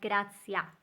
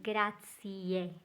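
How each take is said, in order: First: The word ends with an a vowel. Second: The word ends with a clear e vowel. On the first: The speaker calls it wrong. "or not grazia" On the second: The speaker calls it right. "Make sure you pronounce that final E"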